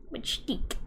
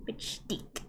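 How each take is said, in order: First: Said in the usual way. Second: Whisper. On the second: Acted. Whispered repeat.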